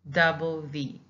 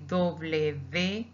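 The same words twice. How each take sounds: First: Said in the usual way. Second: W V said as "doble ve"; Spanish "doble ve" for W V; Spanish letter name. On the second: Shown as a demonstration. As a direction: say W V in Spanish, "DOH-bleh veh". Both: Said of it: "or we can say W V".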